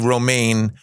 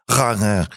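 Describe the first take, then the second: First: The name is said with a plain American accent. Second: The name is said with an exaggerated Dutch accent. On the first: "here in the United States, they say Romaine" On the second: "I learned in Holland... it's actually pronounced Range... I really exaggerated that"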